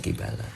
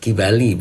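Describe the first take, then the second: First: The word ends with an 'a' vowel. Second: The word ends with an 'i' vowel. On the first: The speaker calls it wrong. "bukan kibala" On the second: The speaker calls it right. "kibali bukan kibala"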